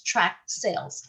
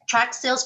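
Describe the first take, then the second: First: Slow, drawn out. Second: Said in the usual way. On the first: Shown as a demonstration. Teacher introducing a new term to class, slow and drawn out. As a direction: draw out tract sales slowly like a new term. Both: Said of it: "for those of you who do not know".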